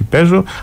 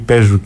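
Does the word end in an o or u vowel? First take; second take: o; u. First: The final vowel sounds like o. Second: The final vowel sounds like u. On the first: This is the standard Modern Greek form. "όχι παίζω" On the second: This is the dialect form. "παίζω και όχι"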